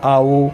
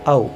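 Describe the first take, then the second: First: The vowel is held somewhat longer. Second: The word is said short and normally. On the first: The person called is a little far away. "थोड़ा दूर है तो बोलेंगे आओ, ये दीर्घ हो गया" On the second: The person called is close by. "कोई नज़दीक है तो हम बोलेंगे आओ"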